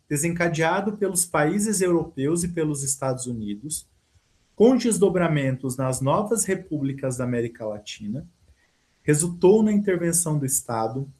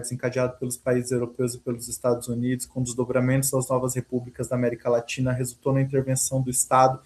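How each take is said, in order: First: It is read with pauses at each comma. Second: It is read straight through without pausing at commas.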